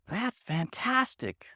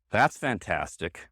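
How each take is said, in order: First: High, slow, delighted; sincerely thrilled, pitched well up; genuine praise. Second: Low, slow, unimpressed; mock praise in a low voice; sarcastic. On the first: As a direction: stretch fantastic out high with real enthusiasm. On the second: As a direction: drop the pitch and drag it out sarcastically. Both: Shown as a demonstration. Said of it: "one is genuine and one is sarcastic".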